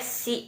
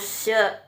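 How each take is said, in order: First: The vowel sounds like 'ee'. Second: The vowel sounds like a short 'uh'. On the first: The speaker calls it wrong. "ini tidak boleh si bacanya ya" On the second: The speaker calls it right. "tapi harus se"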